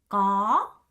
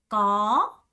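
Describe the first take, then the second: The two takes are said the same way.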